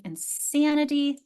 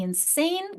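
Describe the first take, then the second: First: Insanity slowly, with short A in SAN. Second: Insane with a long, raised AY vowel. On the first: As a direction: say insanity with the flat-cat vowel, slow and higher. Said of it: "we have a short A". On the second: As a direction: stretch the long A in insane, pitched higher. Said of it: "Long A". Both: Shown as a demonstration.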